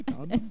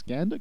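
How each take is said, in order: First: "Gander" with a long ah, like "Gahnder"; posh Gander. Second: "Gander" with a short flat a, as in cat. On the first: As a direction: ask "Gander" the posh way, broad ah. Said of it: "Gander sounds very posh". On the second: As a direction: ask "Gander" with the a of "hand". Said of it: "it's called gander". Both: Shown as a demonstration.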